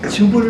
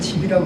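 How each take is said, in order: First: The vowel is the standard 'eu' sound. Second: The vowel is turned into an 'i' sound. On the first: The speaker calls it right. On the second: The speaker calls it wrong.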